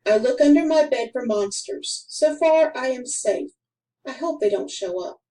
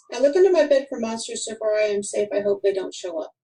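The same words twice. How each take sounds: First: Each sentence ends, short pause before the next; careful read with full stops; with sentence breaks. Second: Rushed straight through with no stops between sentences; one breathless run-on read; run-on, no pauses. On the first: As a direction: stop clearly at every period. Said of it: "But when we put in some periods". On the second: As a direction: run it all together, no breaks. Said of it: "There is nothing to tell us when one sentence starts". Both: Shown as a demonstration.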